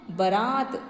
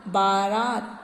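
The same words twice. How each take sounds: First: बारात as "ba-raat", quick first vowel; short first vowel. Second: बारात as "baa-raat", both vowels drawn out; long first vowel. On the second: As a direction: lengthen the opening a of बारात. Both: Shown as a demonstration. Wrong then right word form.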